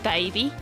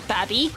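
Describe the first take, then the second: First: The first vowel is long, as in 'day'. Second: The first vowel is short, as in 'cab'. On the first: The speaker calls it right. "instead of baby" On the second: The speaker calls it wrong. "Did she say Babby instead of baby?"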